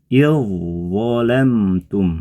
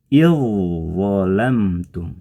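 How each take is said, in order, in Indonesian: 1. Bunyi dh menyatu dengan huruf konsonan setelahnya. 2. Bunyi dh menyatu dengan huruf konsonan setelahnya.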